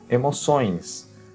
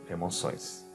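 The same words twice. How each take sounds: First: The word is said at a slower pace. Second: The word is said at a faster pace.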